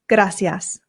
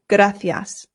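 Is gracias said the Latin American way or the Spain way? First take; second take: Latin American; Spain. First: The c is said without a th sound. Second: The c is said with a th sound. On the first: "the Latin American way" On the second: "here in Spain, they pronounce the C's with a T H sound"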